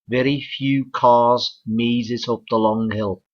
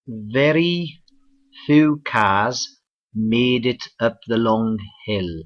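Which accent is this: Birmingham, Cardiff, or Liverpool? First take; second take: Liverpool; Cardiff. First: It is spoken in a Liverpool accent. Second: It is spoken in a Cardiff accent. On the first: "let's go further north to Liverpool" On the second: "let's go across the border to Cardiff, Wales"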